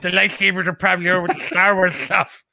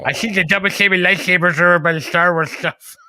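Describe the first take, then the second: First: Mimicking a lisp. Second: Whispered lisping store clerk; whispered mimicry. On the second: Mocking the Walmart clerk's answer in a whisper. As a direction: breathe it out as a mock of the clerk. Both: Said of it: "when she mimicked him".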